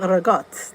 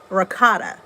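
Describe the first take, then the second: First: It is said with an old Italian dialect pronunciation. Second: It is said with a standard American pronunciation. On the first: "We always say ragotte. ... It's like the old Italian way" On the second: "the Americans would say"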